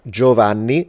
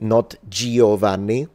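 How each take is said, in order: First: The vowel after the G is silent. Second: The vowel after the G is sounded separately. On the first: The speaker calls it right. "is not pronounced" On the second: The speaker calls it wrong.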